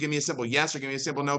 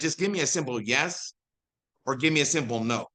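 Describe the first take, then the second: First: It is said fast. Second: It is said slowly.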